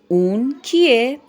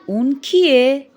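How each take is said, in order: Both takes have the same delivery.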